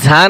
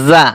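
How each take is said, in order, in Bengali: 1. এটি একটি 'j' ধ্বনি দিয়ে শুরু হয়। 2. এটি একটি গুঞ্জনময় 'z' ধ্বনি দিয়ে শুরু হয়। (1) "অনেকে বলে এটা ঝা" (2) "ঝা না জা"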